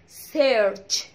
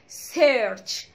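First: The word ends with a clear 'ch' sound. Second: The word ends with a clear 'ch' sound.

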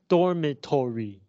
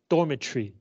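First: The O near the end is pronounced. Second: The O near the end is silent. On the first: The speaker calls it wrong. "Not dormitory" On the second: The speaker calls it right. "In English, this O does not make a sound"

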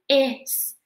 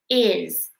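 First: The word ends with a hissing s sound. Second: The word ends with a buzzing z sound. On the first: The speaker calls it wrong. "instead of saying is" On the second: The speaker calls it right. "we say is"

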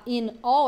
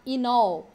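First: The two words are said separately. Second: The two words are run together. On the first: "Ao invés de falar in all" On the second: "aqui a gente pode juntar"

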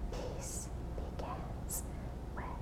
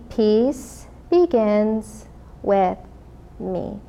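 First: It is spoken in a whisper. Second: It is spoken in a normal voice.

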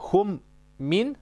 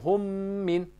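First: The two M sounds are said as separate letters. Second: The M is merged into one doubled sound. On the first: The speaker calls it wrong. "în loc să zicem" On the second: The speaker calls it right. "zicem hum min. Deci dublăm pe M"

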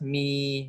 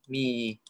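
First: The syllable is said with the common tone. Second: The syllable is said with the third tone. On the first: "Common, tone" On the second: "we, get, ti, san, sheng"

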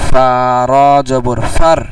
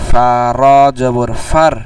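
Both takes have the same delivery.

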